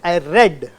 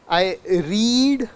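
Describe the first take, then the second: First: The vowel is a short eh sound. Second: The vowel is a long ee sound. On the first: "so it's A" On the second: "so it's E"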